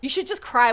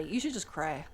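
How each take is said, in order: First: Said in the usual way. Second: Much softer, falling off; soft afterthought to the listener; quiet repeat. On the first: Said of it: "first take of advice". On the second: Shown as a demonstration. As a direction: say it again almost under your breath. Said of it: "repeated advice, dropped low".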